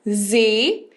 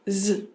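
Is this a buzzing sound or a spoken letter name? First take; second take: letter name; buzzing sound. First: It is said as the letter's full name. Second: It is said as a plain buzzing z sound. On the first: "o nome da letra é Z" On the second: "e o som é Z"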